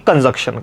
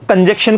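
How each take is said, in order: First: The second syllable sounds like 'junk'. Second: The second syllable sounds like 'jek'. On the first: The speaker calls it right. "ना कि कंजक्शन का" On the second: The speaker calls it wrong. "उच्चारण जो उसने पढ़ा है वो कंजक्शन का पढ़ा है"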